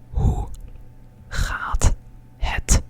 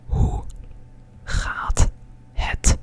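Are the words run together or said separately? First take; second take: separately; separately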